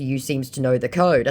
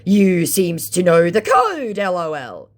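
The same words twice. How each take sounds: First: Said in the usual way. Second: Mock scammer voice. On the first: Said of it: "in response to". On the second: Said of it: "thinking again I was a scammer".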